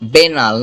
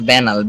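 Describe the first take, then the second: First: The first vowel sounds like the one in 'bet'. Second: The first vowel sounds like the one in 'bat'. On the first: The speaker calls it right. "বেনাল, not ব্যানাল" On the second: The speaker calls it wrong. "নট ব্যানাল"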